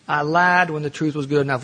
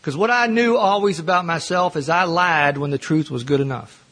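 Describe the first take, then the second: First: LIED leaned on, words spaced out; lied dwelt on as he repeats it to the room; slow stressed repeat. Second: Said in the usual way. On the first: Real, not acted. Telling the AA room with LIED stressed. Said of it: "repeated slower, stressed on lied".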